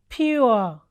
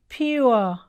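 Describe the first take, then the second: No difference in how they are said.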